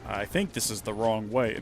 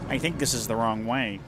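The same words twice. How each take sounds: First: It is said in an ordinary, unchanged voice. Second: It is said in a put-on character voice. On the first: The speaker calls it wrong. "Not like that, he wouldn't" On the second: The speaker calls it right. "You know how Barrett sounds? The way that Barrett talks?"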